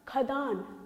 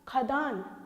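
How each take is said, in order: Both takes have the same delivery.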